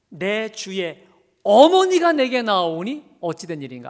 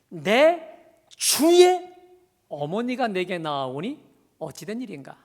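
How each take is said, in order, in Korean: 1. "어머니"에 강세가 있습니다. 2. "주"에 강세가 있습니다. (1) "어머니를 강조하고 있는 겁니까?" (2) "주를 강조하고 있는 겁니까?"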